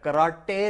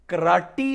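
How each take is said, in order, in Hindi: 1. यह शब्द 'ay' की आवाज़ से खत्म होता है। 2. यह शब्द 'ee' की आवाज़ से खत्म होता है। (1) "कराटे नहीं होता" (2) "कराटी होता है"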